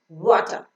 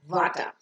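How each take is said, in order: First: The word starts with rounded lips. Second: The word starts without rounded lips. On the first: The speaker calls it right. "rounding your lips and pronouncing water" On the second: The speaker calls it wrong. "not water"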